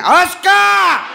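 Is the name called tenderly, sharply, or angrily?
angrily. The name is yelled harshly and angrily.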